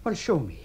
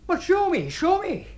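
First: Said in the usual way. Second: High, loud, insistent challenge; heated, repeated insistence; exasperated demand. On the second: Acted. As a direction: demand it with the voice pitched right up. Challenge repeated, losing patience.

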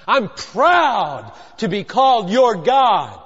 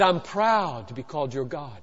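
First: Slow, ringing stress on "proud"; emphatic declaration. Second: Low, soft statement of pride; hushed, deep voice of God; understated declaration. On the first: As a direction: proclaim it slowly, leaning hard on "proud". Repeats God's words with force. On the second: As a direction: say it quietly, pitched well down. First take, God's words, understated. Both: Acted.

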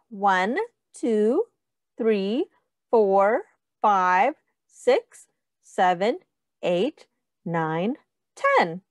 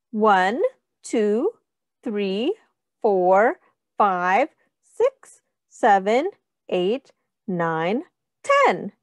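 No difference in how they are said.

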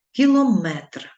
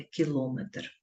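First: "Кілометр" stressed at the end, ki-lo-METR; loud, higher METR in "Кілометр"; correct stress on last syllable. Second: "кілометр" stressed in the middle, ki-LO-metr; softer, lower, stress on LO of "кілометр"; wrong stress on middle syllable. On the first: Teacher showing pupils the correct form, final-syllable stress on "Кілометр". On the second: Teacher citing the mistake to avoid, middle-syllable stress on "кілометр". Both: Shown as a demonstration. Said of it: "а не кілометр".

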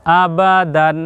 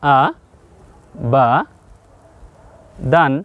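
First: "আবাদান" run together as one word; connected reading of "আবাদান"; joined-up word. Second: "আ ... বা ... দান" with long pauses between the syllables; spell-it-out reading of "আ বা দান". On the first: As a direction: say "আবাদান" evenly, with no breaks between syllables. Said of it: "কি শিখলেন?". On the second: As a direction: read "আ", "বা", "দান" one at a time, well separated. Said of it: "তাহলে আপনি শব্দটা পড়ুন". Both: Shown as a demonstration.

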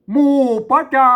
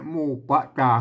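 First: Reading aloud. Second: Said in the usual way. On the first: Shown as a demonstration. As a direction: recite it high and loud like reading the verse aloud. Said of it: "หมู่ปะจา (ซ้ำแบบพูดปกติ)". (อ่านออกเสียงแบบท่องกลอน เสียงสูงและดัง)

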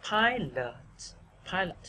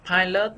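First: Weaken the end of "pilot"; first-syllable stress. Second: "pilot" with a full second syllable; mistaken even stress. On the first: Teacher modelling, "pilot" stressed on the first syllable. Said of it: "mình đọc là". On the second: Teacher showing what to avoid, "pilot" evenly stressed. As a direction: give both halves of "pilot" equal weight. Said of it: "Thay vì pilot". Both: Shown as a demonstration.

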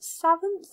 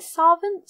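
First: "Savant" with a short "sa" as in sat, questioning; second pronunciation attempt. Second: "Savant" with a broad "sah" first vowel, questioning; unsure pronunciation. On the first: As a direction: try "Savant" as SAV-unt, rising. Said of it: "I never pronounce things right". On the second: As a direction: try "Savant" as SAH-vunt, rising. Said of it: "how you say it?". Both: Real, not acted.

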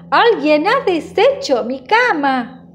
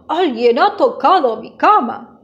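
First: Higher-pitched irritated mama bear; mild storybook exasperation, voice swooping up; exasperated. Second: Big bear's emphatic mock growl; powerful growl. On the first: Mama bear finds her bed undone, mildly exasperated. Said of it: "cada vez más irritada". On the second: Big bear sees his bed, growling powerful voice. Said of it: "gruñe con voz potente". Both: A narrator's reading.

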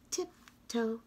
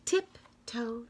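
Both takes have the same delivery.

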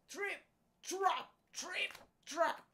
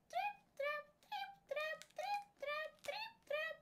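First: Loud, emphatic footsteps, raised in pitch; heavy trip-trap. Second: Tiny, very high-pitched footsteps; trip-trap it in a high little voice, evenly; light high trip-trap. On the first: Big billy goat crossing the bridge, loud heavy trip-trap. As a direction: stamp out each word loudly. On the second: Youngest billy goat crossing the bridge, tiny high trip-trap. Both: A narrator's reading.

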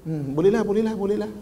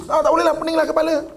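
First: Mild, subdued giving in; reconsidered agreement. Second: High, fast, acted exasperation; knee-jerk refusal. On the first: Acted. Person agreeing after three minutes' thought, relenting. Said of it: "Kemudian lepas tiga minit boleh fikir". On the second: Person refusing before thinking, high exasperated blurt. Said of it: "Dia ah dulu, dia tak boleh dulu".

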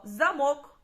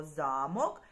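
First: Замок with the weight on МОК, za-MOK; stress on second syllable. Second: Замок with the weight on ЗА, ZA-mok; stress on first syllable. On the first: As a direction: stress the last vowel of замок. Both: Shown as a demonstration. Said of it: "але перетворимо на слово замок".

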